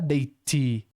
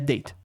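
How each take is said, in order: First: The final T sound is clearly released. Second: The final T sound is not heard. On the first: The speaker calls it wrong. "não é date" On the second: The speaker calls it right. "a letra T é muda de verdade"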